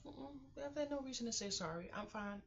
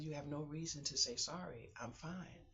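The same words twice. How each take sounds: First: Pitched up, quick brushing-off "I'm fine"; high protest. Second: Said in the usual way. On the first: Retold or imitated. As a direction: toss it off high and fast. Quoting her reply to doctor.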